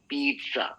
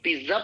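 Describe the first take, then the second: First: The first syllable sounds like 'peet'. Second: The first syllable does not sound like 'peet'. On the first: The speaker calls it right. "इसका right pronunciation होता है पिज्जा। पीठ" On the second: The speaker calls it wrong. "इसको पिज्जा pronounce नहीं करते"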